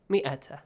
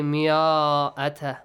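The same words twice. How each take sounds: First: مئة short and quick, "mi-ata"; silent alif. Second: مئة with a long, drawn-out "aa" after the mim, "miaa-ata"; wrongly sounded alif. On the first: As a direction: say مئة with no long vowel after the mim. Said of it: "the alif is not pronounced". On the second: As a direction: stretch مئة as the mistake. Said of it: "Do not say مئة". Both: Shown as a demonstration.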